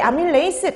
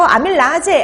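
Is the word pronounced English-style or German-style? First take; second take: English-style; German-style. First: The word ends in an English-style 'reis' sound. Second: The word ends in a German-style 'raje' sound. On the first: This is the current way it appears on exams. "영어식으로 발음하느냐" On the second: This is the older way it was pronounced. "독일식으로 발음하느냐"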